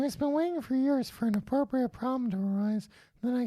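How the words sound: It is read in a put-on girl voice.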